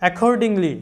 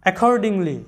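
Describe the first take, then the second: First: Accordingly said clearly, stress on the first syllable, single k sound; model pronunciation. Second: Accordingly repeated with a falling end, single k sound; model pronunciation repeated. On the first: Teacher modelling the word for students, careful and clear. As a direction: say accordingly slowly and crisply for learners. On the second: Teacher repeating the word for students to copy, firm. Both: Shown as a demonstration. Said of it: "এই শব্দের উচ্চারণটা আমাদের আসতেছে".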